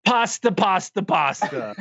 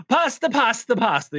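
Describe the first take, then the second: First: Hammed-up French accent, starting high. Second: High-pitched mock Italian accent. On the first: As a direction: imitate a thick French accent. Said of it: "super deep French accent". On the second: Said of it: "going into an Italian accent".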